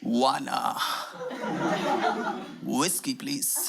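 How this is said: It is said in a deep, heavy voice.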